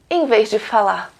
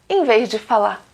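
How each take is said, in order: The two takes are said the same way.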